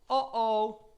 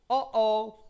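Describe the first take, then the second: No difference in how they are said.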